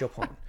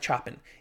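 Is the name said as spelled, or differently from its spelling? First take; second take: differently; as spelled. First: The name is said differently from its spelling. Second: The name is read just as it is spelled. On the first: The speaker calls it right. "it's Chopin, right?" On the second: The speaker calls it wrong. "It looks like Chopin"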